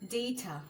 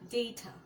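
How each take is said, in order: First: The first vowel sounds like 'ay'. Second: The first vowel sounds like 'ay'.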